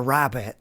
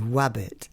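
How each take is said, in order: First: It starts with a strong, rolled R sound. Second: It starts with a W-like sound instead. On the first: "So the R's will be quite rolled" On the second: "it would be wabbit"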